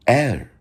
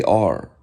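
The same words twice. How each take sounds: First: "er" drawn out like "air"; slow, airy "er" for the letter R; airy German R. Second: Said in the usual way. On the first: Shown as a demonstration. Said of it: "they say er". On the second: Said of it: "they do not say R".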